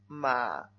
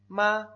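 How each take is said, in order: First: The pitch dips low, then rises. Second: The pitch stays high and level. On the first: "Vamos al tercero" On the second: "Primer tono"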